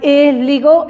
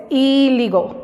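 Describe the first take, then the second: First: 'illegal' said as 'eh-ligol', rising at the end; wrong E vowel. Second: 'illegal' said as 'ee-ligol', falling at the end; I as Spanish i. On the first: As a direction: show the mistake, illegal opening on eh. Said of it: "No es illegal, es illegal". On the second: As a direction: correct illegal with a clear opening ee. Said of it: "va a sonar como I, como en español". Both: Shown as a demonstration.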